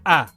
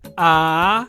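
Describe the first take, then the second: First: The pitch drops low. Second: The pitch falls and then rises. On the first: "the low tone, when your voice drops" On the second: "the rising tone is sa"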